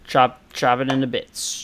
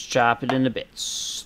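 First: "Chop" hit louder with a falling tune; stress on chop. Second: Said in the usual way. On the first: Shown as a demonstration. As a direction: punch the word "Chop" on each repeat.

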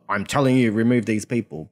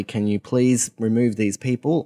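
First: A stern command, no please; firm order. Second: Asking politely and gently; a courteous please; polite request. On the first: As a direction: tell them flatly to do it. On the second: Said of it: "said politely". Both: Retold or imitated.

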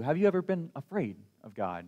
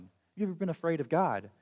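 First: Said in the usual way. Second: Quick insistent re-ask; rushed, urging second asking; faster repeat. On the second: Real, not acted. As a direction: repeat "Have you ever been afraid of God?" quicker, pressing. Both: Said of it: "repeated question".

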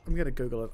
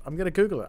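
First: Lower, softer aside under the breath; muttered to self. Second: Said in the usual way. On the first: Real, not acted. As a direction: grumble it to yourself, defeated. Repeats phrase, first take muttered.

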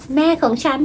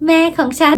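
First: Put-on softer, higher kid's boast "แม่ของฉัน"; child bragging softly. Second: Put-on "แม่ของฉัน" higher and louder, a proud kid's boast; child bragging louder. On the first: Mom retells sons bragging to friends, soft and high. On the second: Mom retells sons bragging to friends, louder and higher. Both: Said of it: "มัวแต่บอกเพื่อนอยู่นั่นแหละ".

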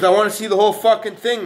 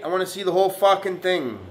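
First: "whole" hit loud and high; stress on whole. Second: Said in the usual way. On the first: Real, not acted. To the viewers, demanding the whole lift, stress on "whole". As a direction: punch the word "whole" hard.

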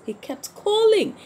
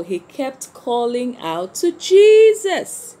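First: "He kept calling" pitched much higher; high emphatic repeat. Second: Louder, slower, leaning on "he kept calling out to Jesus"; emphatic, louder and slower. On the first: Teacher repeating to the children, much higher on "He kept calling". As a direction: lift "calling" right up to stress it. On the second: Teacher to children, stressing Bartimaeus' persistence, louder and slower. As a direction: drive the point home to the class. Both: Acted.

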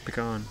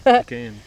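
First: Pecan with an "ah", softer; Pecan, open "ah" in the last syllable; Pecan as pih-KAHN. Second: Pecan with the "a" of cat, loud; Pecan, punched out with a front "a"; Pecan as pee-KAN. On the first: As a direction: say Pecan so it rhymes with swan. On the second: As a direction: say Pecan so it ends like "can". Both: Shown as a demonstration. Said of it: "I say both".

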